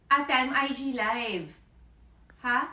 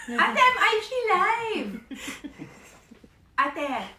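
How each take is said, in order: First: Louder call to the next room; raised voice calling sister. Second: Much higher, much louder exasperated yell; shouting to sister with a laugh. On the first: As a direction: call out to your sister to get her attention. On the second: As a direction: yell it through a laugh so she finally hears. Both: Real, not acted.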